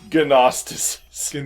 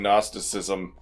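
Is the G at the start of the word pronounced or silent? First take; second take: pronounced; silent. First: The word starts with a hard G sound. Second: The word starts with an N sound. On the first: The speaker calls it wrong. "It is not Gnosticism" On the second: The speaker calls it right. "the G in Gnosticism is silent"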